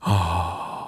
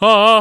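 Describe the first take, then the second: First: The 'ah' is soft, easy and relaxed. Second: The 'ah' is sharp, forceful and punchy. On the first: It suits easy-listening music. "이렇게 편안하게 나와야" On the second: It suits a singing competition. "정말 툭 쏘는 발성"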